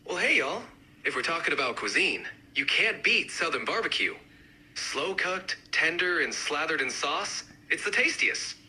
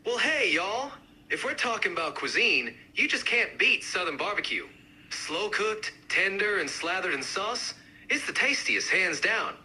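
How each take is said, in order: First: Lightly done Southern accent. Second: Livelier, more pronounced Southern accent; amped-up Southern accent. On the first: Barbecue advocate arguing for the best regional dish, mild Southern accent. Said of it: "each accent, uh, represented by a speaker". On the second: Barbecue advocate arguing for the best dish, amped-up Southern accent. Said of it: "really amp up the accents". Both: Shown as a demonstration.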